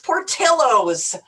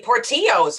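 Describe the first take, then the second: First: The name is said with an English pronunciation. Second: The name is said with a Spanish pronunciation. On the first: "It's Portillos"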